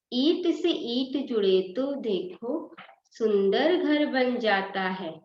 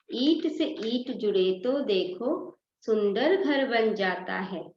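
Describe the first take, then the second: No difference in how they are said.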